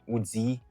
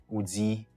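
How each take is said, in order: No difference in how they are said.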